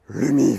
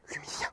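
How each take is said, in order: First: It is said in a deeper voice. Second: It is whispered.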